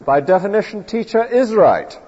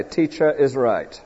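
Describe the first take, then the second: First: Put-on school kid's certainty. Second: Quoted slogan. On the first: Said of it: "difficult for the school kid to believe". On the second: Pretend. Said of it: "we must never say".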